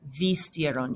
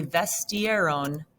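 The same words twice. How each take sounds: First: "vistieron" with I in the first syllable; stem-changed form. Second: "vestieron" with E in the first syllable; regular wrong form. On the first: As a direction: say "vistieron" as vis-TIE-ron, voice dropping. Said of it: "it's going to be". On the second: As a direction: say "vestieron" as ves-TIE-ron, no vowel change. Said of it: "you would normally wanna say". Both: Shown as a demonstration.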